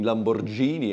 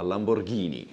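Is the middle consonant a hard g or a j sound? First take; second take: j sound; hard g. First: The middle consonant is a soft j sound. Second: The middle consonant is a hard g sound. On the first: The speaker calls it wrong. "Это не Lamborghini" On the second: The speaker calls it right. "а Lamborghini. ... Правильно"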